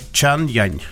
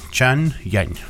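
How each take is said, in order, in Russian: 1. Второй слог начинается с мягкого звука й. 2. Второй слог начинается с мягкого звука й.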